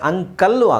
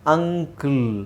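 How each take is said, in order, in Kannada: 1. ಇದು ಸೇರಿಸಿದ 'lu' ಶಬ್ದದಲ್ಲಿ ಮುಗಿಯುತ್ತದೆ. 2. ಇದು ಚಿಕ್ಕ 'el' ಶಬ್ದದಲ್ಲಿ ಮುಗಿಯುತ್ತದೆ. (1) "ಅಂಕಲ್ಲು ಆಗಲ್ಲ" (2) "ಅಂಕಲ್ ಆಗುತ್ತೆ"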